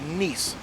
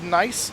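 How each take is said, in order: First: The word rhymes with 'niece'. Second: The word rhymes with 'ice'. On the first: "it is pronounced Nice ... kind of like a niece" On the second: "it's spelled nice"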